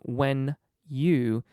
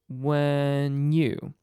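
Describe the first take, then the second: First: The N stays on 'when', breaking the phrase. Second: The N is joined onto the Y of 'you'. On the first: The speaker calls it wrong. "attaching it and breaking the phrase" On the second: The speaker calls it right. "Combine the N with the Y"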